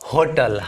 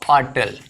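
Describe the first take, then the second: First: The word starts with an h sound. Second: The word starts without an h sound. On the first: This is the pronunciation now in common use. "इसका pronunciation एच होने लगा है, होटल हम कह देते हैं" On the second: This is the traditional pronunciation. "होटल का जो ट्रेडिशनल साउंड है वो क्या है ऑटल"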